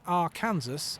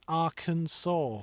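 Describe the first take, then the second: First: The ending is said like the word Kansas. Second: The ending is said differently from Kansas. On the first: The speaker calls it wrong. "you don't pronounce it Arkansas as it's spelt and as you'd think it would be" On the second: The speaker calls it right. "It's pronounced Arkansas for some reason"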